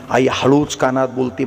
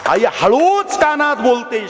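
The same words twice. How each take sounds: First: Said in the usual way. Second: आई हळूच कानात बोलते raised higher with a fall on हळूच; emphatic retelling. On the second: Shown as a demonstration. Preacher repeats the line to the crowd, higher and emphatic. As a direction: lift the line, lean on हळूच.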